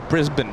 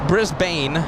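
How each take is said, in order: First: It is said with an Australian pronunciation. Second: It is said with an American pronunciation. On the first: "She says it's uh" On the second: "Americans would call it Brisbane"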